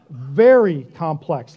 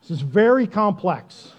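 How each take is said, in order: First: Very complex slow and louder; very drawn out, louder and slow; stress on very. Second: Said in the usual way. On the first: Real, not acted. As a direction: lean hard on very. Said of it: "like I said". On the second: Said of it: "very complex, like I said".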